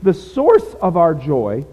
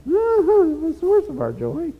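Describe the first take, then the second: First: Said in the usual way. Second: Much higher, slow mock-pompous preaching; hammed-up high preacher sing-song. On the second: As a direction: parody your own rusty sermon delivery. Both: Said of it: "can you tell I haven't talked or preached for a while?".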